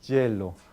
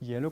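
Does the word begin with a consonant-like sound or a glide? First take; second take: consonant; glide. First: The word begins with a fricative consonant sound. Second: The word begins with a soft gliding sound. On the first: "en algunos países latinoamericanos, como Argentina, también en Colombia o en México, se dice" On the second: "en vez de decir este hielo"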